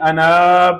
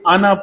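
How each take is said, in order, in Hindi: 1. अंतिम स्वर लंबा खींचा जाता है। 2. अंतिम स्वर छोटा रखा जाता है। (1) "हम इसकी आवाज को लंबा करके पढ़ते" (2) "बल्कि आना पढ़ना है"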